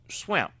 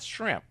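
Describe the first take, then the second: First: The word begins with an 'sw' sound. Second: The word begins with a 'shr' sound. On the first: This is how people back home said it. "my mother grew up saying swimp" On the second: This is how people elsewhere say it. "not shrimp"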